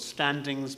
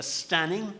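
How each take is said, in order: First: Said in the usual way. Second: Put-on "stanning" said with no d, old Dublin style. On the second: Shown as a demonstration. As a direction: drop the d: "stanning". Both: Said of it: "the Dublin people called it a stanning".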